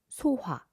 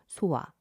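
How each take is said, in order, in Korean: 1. ㅎ 소리가 분명하게 발음돼요. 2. ㅎ 소리가 빠져요. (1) "제대로 히읗의 음가를 살려서 발음해 보겠습니다" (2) "제가 한번 이응으로 발음을 해볼게요"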